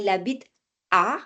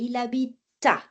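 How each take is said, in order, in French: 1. La consonne finale est séparée de la voyelle suivante. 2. La consonne finale est liée à la voyelle suivante. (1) "On ne dit pas il habite à" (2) "mais il habita"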